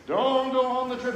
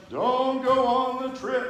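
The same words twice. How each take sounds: First: High, loud ghostly call. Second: High, slow, loud ghostly moan. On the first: Ghost grandmother repeating her warning, eerie and loud. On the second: Grandmother's ghost warning you off the trip, eerie moan. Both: Shown as a demonstration. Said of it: "That's my ghost voice".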